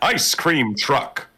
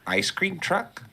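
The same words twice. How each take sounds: First: It is said in a put-on silly voice. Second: It is said in his normal voice.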